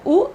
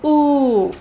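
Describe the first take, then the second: First: U as a brief "oo" as in put; shorter U. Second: U as a long, held "oo"; longer U. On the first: Teacher comparing two sounds, shorter U. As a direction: keep the U short. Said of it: "this is a shorter". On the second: Teacher comparing two sounds, longer U. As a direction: draw the U right out. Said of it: "this one is longer". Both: Shown as a demonstration.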